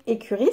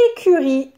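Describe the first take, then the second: First: Said in the usual way. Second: "écurie" in three deliberate beats; carefully segment "écurie", é-cu-rie; syllable by syllable. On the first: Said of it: "c'est la maison des chevaux". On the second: Shown as a demonstration. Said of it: "la syllabe riz".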